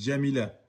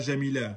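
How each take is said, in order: First: It begins with a 'dj' sound, a D first. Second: It begins with a soft French 'zh' sound. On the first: The speaker calls it right. "on dit Jamila" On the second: The speaker calls it wrong. "On ne dit pas Jamila"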